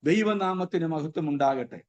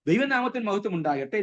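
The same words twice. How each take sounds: First: It is said very slowly and drawn out. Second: It is said quickly and smoothly in one flow. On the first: The speaker calls it wrong. "വളരെ പതുക്കത്തിൽ വളരെ സാവധാനതയിൽ" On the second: The speaker calls it right. "Paragraph ആയിട്ട് നമ്മളൊന്ന് അതങ്ങ് പറഞ്ഞു വിടുക"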